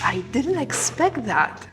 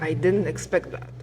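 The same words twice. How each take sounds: First: The voice sounds excited and enthusiastic. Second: The voice sounds sarcastic and mocking. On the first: The surprise is a pleasant one. "say it as if you were excited" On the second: It was not really a surprise at all. "say it sarcastically"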